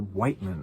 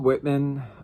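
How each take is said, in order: First: The first syllable has a long 'eye' vowel. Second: The first syllable has a short 'i' vowel. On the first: The speaker calls it right. "I should say Whiteman" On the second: The speaker calls it wrong. "I always want to say Whitman"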